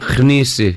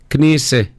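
First: The word starts with a raspy kh sound. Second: The word starts with a plain k sound. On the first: The speaker calls it wrong. "No, there's no kh" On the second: The speaker calls it right.

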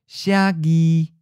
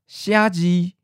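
First: The second syllable starts with a g sound. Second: The second syllable starts with a j sound. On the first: "it's merging with the G sound" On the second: "instead of Xiaji for to write"

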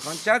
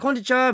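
First: The greeting is said quietly, barely voiced. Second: The greeting is said louder and more forcefully. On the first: A vague, half-hearted greeting to everyone. "大きな声で出すか出さないかぐらいのこんちは" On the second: A deliberate greeting to someone notable. "ちょっとは強めに行って"

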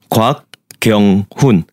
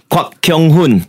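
First: It is said the Korean way, softly. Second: It is said the English way, harshly.

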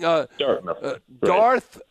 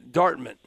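First: The word ends with a clear 'th' sound. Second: The word ends without a 'th' sound. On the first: The speaker calls it right. "I have to say TH. Instead of saying Dartmouth" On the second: The speaker calls it wrong. "I keep mispronouncing"

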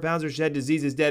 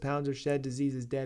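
First: It is said loudly with high energy. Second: It is said quietly with low energy. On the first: The speaker calls it right. "Let's turn the gain back up" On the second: The speaker calls it wrong. "Why can't they hear us right now? Oh, because the gain is too low"

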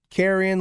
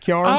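First: It is said with the standard pronunciation. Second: It is said with a southern Appalachian pronunciation.

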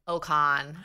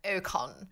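First: The name is said in a Canadian accent. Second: The name is said in an exaggerated British accent. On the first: "the Canadians were more like an Ocon" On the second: "the British became super British, like Ocon"

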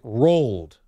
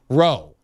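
First: It sounds like the word rolled. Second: It sounds like the short word roe. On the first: "like R-O-L-L-E-D" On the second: "Just Roe"

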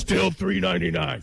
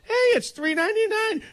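First: It is said in a low, glum tone. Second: It is said in a high, cheerful tone.

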